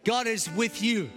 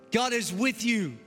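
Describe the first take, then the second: No difference in how they are said.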